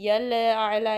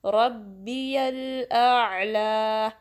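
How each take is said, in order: First: यल आला with the लाम wobbling, the way not to recite it; mock wrong recitation; wrong lam. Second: रब्बियल आला slow, the लाम held steady and the end आला stretched; steady lam. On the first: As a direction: shake the लाम in यल आला on purpose as the mistake. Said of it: "ऐसे नहीं पढ़ना". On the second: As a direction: stretch आला for two counts, lam kept still. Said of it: "stable रखना है". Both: Shown as a demonstration.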